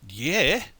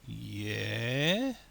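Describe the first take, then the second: First: It sounds eager and enthusiastic. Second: It sounds hesitant and unconvinced. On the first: The answer is a wholehearted yes. "One says, yes, absolutely" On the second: The listener is not yet convinced. "the other says, eh, keep going, I'm not sure yet"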